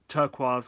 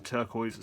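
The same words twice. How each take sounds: First: The word is said with a French-style pronunciation. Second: The word is said with an English-style pronunciation. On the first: It keeps the original foreign form. "It's a French word originally" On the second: It is the long-assimilated everyday form. "got assimilated to turquoise"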